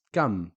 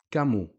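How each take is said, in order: First: "kam" in one syllable closed on M; sukoon on the M. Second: "kamu" in two syllables, short u after M; dhamma on the M. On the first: Teacher reading the sukoon word, stopped M. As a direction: shut "kam" on the M, no vowel. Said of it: "a sukoon on the meme". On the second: Teacher reading the dhamma word, final u. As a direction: open the M of "kamu" into u. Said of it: "on the meme a dhamma short vowel". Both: Shown as a demonstration.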